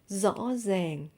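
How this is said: It is said in a Northern Vietnamese accent. "but in Northern accent, it will sound like rõ ràng"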